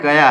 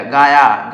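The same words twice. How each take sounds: First: गया with a short first vowel, ga-ya; गया said short and quick, ga-ya, the right way; correct reading gaya. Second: गाया with a long aa in the first syllable, gaa-ya; गाया drawn out as gaa-ya, the mistaken reading; wrong reading gaaya. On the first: Teacher corrects students, saying गया with a short ga. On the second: Teacher shows students the wrong reading, saying गाया with a long gaa. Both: Shown as a demonstration. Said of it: "लेकिन यह गाया नहीं है".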